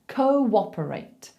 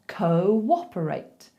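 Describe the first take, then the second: First: A w glide links the first two vowels. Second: The same.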